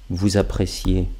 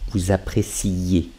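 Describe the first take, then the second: First: The i sound before the ending is heard once. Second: The i sound before the ending is doubled. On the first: It is in the present tense. "le présent" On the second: It is in the imperfect tense.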